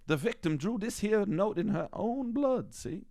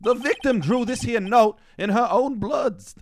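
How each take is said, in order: First: Put-on wrong American accent. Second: Put-on New York cop accent. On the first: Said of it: "reverting to a different kind of American accent". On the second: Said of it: "this is hard".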